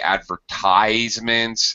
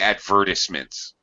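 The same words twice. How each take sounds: First: It is said with an American pronunciation. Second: It is said with a British pronunciation. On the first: "Americans say advertisements" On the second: "British people say advertisements"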